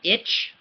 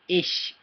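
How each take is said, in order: First: The word ends with a 'tch' sound. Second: The word ends with a soft 'sh' sound. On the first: The speaker calls it wrong. "It looks like it'd be like itch, like an itch, right? But it's not" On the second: The speaker calls it right. "You say ish"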